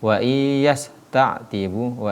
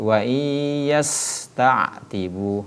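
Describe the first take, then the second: First: The s sound is stopped abruptly. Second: The s sound flows continuously. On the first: The speaker calls it wrong. "tidak boleh dibaca" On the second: The speaker calls it right.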